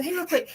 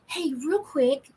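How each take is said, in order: First: Bright quick interrupt. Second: Slow casual interrupt. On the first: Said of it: "I go". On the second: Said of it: "And I would go". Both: Retold or imitated.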